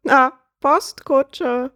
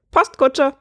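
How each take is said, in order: First: High, very slow bird voice; relished punchline. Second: High, quick squawk; bird's punchline. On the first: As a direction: stretch the repeat out, savouring the joke. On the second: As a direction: squawk the answer out triumphantly. Bird gives his punchline. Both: Acted.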